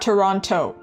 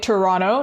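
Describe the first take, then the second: First: The second t is clearly pronounced. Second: The second t is dropped, sounding like Toronno. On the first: This sounds like someone not from there. The speaker calls it wrong. "not Toronto. You don't say the T O" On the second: This is how locals say it. The speaker calls it right. "you say Toronto, It turns into N N O"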